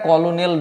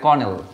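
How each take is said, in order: First: The word is said with three syllables, 'ko-lo-nel'. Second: The word is said with two syllables, 'kernel'. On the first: The speaker calls it wrong. "কিন্তু এটা কলোনেল নয়" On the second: The speaker calls it right. "এটা কর্নেল"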